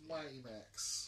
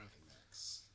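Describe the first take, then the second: First: "Mighty Max" slow, loud and higher; stress on Mighty Max. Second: Said in the usual way. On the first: Shown as a demonstration. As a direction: draw out "Mighty Max" loudly.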